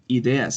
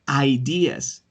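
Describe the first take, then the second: First: The word is pronounced with Spanish sounds. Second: The word is pronounced with English sounds. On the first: "ideas in Spanish" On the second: "ideas is different from"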